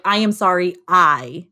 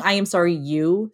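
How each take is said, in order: First: "I am sorry I" said louder, landing on the final "I"; firm, louder delivery, stopping squarely on "I"; model apology. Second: "you" after an even "I am sorry", left hanging; wrong apology example. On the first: Showing how an apology should sound, firmly landing on "I". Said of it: "It should sound like". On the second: Showing a non-apology to avoid, halting on "you". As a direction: cut off right on "you" at ordinary volume. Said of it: "go back to the drawing board". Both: Shown as a demonstration.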